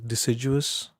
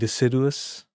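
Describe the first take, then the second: First: The middle D blends into a J sound. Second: The middle D stays a plain D sound. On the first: "the British pronunciation where they where the D and U become the J sounds" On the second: "But now I'm doing deciduous"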